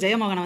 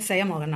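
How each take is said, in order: First: The name begins with a j sound. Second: The name begins with an s sound.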